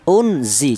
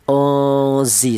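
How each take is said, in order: First: The n sound is pronounced clearly. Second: The n sound is hidden and nasal. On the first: The speaker calls it wrong. "jangan dibaca idhar. Artinya idhar itu jelas, jangan dibaca seperti ini. Unzi jangan" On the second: The speaker calls it right. "nun mati ini disamarkan. Uzi seperti itu"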